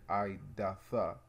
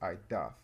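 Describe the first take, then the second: First: The word ends with an added final 'a' vowel. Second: The word ends on the 'th' consonant. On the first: The speaker calls it wrong. "Instead of saying idatha" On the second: The speaker calls it right. "you would drop off the A, so it's idath"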